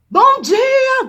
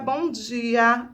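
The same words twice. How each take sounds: First: It is shouted loudly with energy. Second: It is said in a normal, quiet voice.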